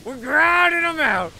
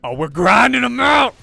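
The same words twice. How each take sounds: First: Higher still, loud sustained yell; hyped cheer. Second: Loud, much higher, triumphant yell; hyped cheer. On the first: Narrator cheering again over practice games, loud yell. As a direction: belt it out, victory chant. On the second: Narrator cheering the grind of practice matches, full shout. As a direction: shout it like a hype man. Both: Acted.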